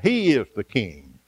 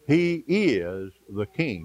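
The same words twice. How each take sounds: First: "He" pushed out firm in "He is the king"; stress on HE. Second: "is" leaned on in a slow "He is the king"; stress on IS. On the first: Preacher insisting to the congregation, "He" hit firmly. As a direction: land hard on "He". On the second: Preacher reminding the congregation, slow with "is" stressed. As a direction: hit "is" slow and firm. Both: Shown as a demonstration. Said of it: "Don't forget that".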